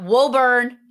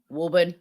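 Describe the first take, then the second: First: Woburn said as "WO-burn"; Woburn with a long "o" and a hard "burn"; Woburn the outsider way; wrong pronunciation. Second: Woburn said as "WOO-bun"; Woburn the local way; correct pronunciation. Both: Shown as a demonstration. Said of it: "Not Woburn".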